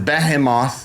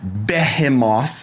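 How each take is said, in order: First: It is said with an American pronunciation. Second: It is said with a British pronunciation.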